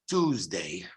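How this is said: It is said in an American accent. "In American English, it's Tuesday"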